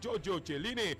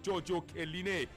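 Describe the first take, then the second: First: The surname begins with a 'ch' sound. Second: The surname begins with a 'k' sound. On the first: The speaker calls it wrong. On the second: The speaker calls it right.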